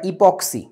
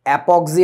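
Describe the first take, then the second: First: The word begins with an 'i' vowel sound. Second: The word begins with an 'a' vowel sound. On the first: The speaker calls it right. "উচ্চারণটা ইপক্সি" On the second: The speaker calls it wrong. "অ্যাপক্সি না"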